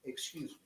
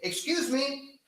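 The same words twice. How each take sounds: First: It is said in a very low, quiet tone. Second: It is said at a normal, audible volume. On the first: The speaker calls it right. "in a very low tone" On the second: The speaker calls it wrong. "you wouldn't say"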